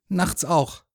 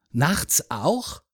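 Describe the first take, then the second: First: "Nachts auch" starting high and falling; high "Nachts", dropping "auch"; confirming. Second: "Nachts auch" with a rise on "auch"; curious, rising "auch"; questioning. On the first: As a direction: answer "Nachts auch" as a firm statement. Boy confirms the man's question. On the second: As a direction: ask "Nachts auch" with a lifted ending. Man asks, boy confirms. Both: A narrator's reading.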